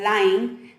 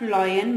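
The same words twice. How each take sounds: First: The word is altered so it rhymes with dime. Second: The word is said with its usual pronunciation. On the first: "speaking it as lion, then it may rhyme with the word dime" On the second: "change the pronunciation of lion"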